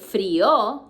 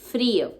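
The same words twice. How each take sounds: First: The stress falls on the second syllable. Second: The stress falls on the first syllable. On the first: The speaker calls it wrong. "You don't say frío" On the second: The speaker calls it right. "with accent on the I"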